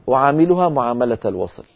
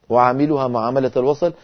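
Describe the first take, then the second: No difference in how they are said.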